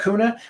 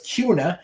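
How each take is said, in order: First: It is pronounced the way the spelling suggests. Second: It is pronounced the way local residents say it. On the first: The speaker calls it wrong. "Wouldn't you pronounce that Kuna?" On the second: The speaker calls it right. "if you live in the area, you know it's Kuna"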